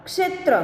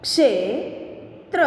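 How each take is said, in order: First: Said in the usual way. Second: Slow reading. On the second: Shown as a demonstration. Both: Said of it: "अब इसका शब्द हम देखें".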